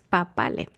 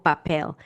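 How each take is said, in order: First: The name is said with Spanish-style sounds. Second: The name is said with English-style sounds. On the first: The speaker calls it right. "la pronunciación del apellido en español es Papale" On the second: The speaker calls it wrong. "en inglés ... termina siendo algo así como papel"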